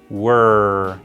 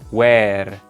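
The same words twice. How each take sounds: First: The vowel is closed, almost just W then R. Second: The vowel is open, like the word where. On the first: The speaker calls it right. "se pronuncia un poquito más cerrado, como si tuviéramos una W y luego una R" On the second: The speaker calls it wrong. "no se pronuncia where"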